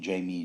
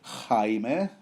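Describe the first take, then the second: First: The name is said like the English name. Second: The name is said like the Spanish name. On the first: "it's not spelled as in uh, Jamie ... like uh, Jamie Lee Curtis" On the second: "pronounce it Jaime while I'm at it? Since the name actually is spelled like the Spanish name Jaime"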